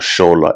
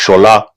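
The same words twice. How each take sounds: First: The name is said plainly, without a Yoruba twang. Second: The name is said with a Yoruba twang. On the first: The speaker calls it wrong. "His name is not Shola" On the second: The speaker calls it right. "You gotta put that twang on there"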